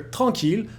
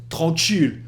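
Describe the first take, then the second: First: The t sound is plain. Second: A hissing sound follows the t.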